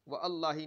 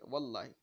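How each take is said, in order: First: The 'wa' is said apart from 'allahi'. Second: The 'wa' is linked smoothly into 'llahi'. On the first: The speaker calls it wrong. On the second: The speaker calls it right.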